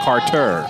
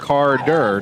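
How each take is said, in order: First: The middle consonant is a T sound. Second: The middle consonant is a D sound. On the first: The speaker calls it wrong. "not C A R T E R" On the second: The speaker calls it right. "C A R D E R"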